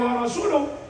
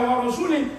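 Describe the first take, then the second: First: The word ends with an 'uh' vowel. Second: The word ends with an 'ih' vowel. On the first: The messenger is also free of the idolaters. The speaker calls it right. "berarti wa rasuluhu bariun aidon" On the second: The messenger is disowned along with the idolaters. The speaker calls it wrong. "maka rasul sama dengan musyrikin"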